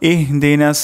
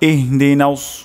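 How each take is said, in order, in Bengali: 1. s ধ্বনিটি একটি সাধারণ, পাতলা s ধ্বনি। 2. s ধ্বনিটি ঠোঁট গোল করে ভারী করে উচ্চারণ করা হয়। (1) "প্রথমে অশুদ্ধ উচ্চারণ করি ইহদিনাস সিন উচ্চারণ করলাম" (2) "শুদ্ধ উচ্চারণটি হলো ইহদিনাউস"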